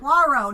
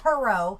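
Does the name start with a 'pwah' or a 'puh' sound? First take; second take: pwah; puh. First: The name begins with a 'pwah' sound. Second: The name begins with a 'puh' sound. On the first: The speaker calls it right. "Poirot, not Perot" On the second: The speaker calls it wrong. "not Perot"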